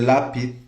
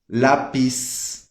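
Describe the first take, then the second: First: The z is pronounced like a th sound. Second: The z is pronounced like an s sound. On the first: This is how people from Spain say it. "Na Espanha vai ser" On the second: This is how Latin Americans say it.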